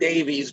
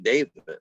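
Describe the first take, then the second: First: The name is said the American way, like Davies. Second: The name is said the British way, like Davis. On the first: The speaker calls it wrong. "we as Americans pronounce their name incorrectly" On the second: The speaker calls it right. "It is actually Davis"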